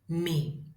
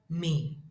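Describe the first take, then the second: First: The nasal is said on a low pitch. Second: The same.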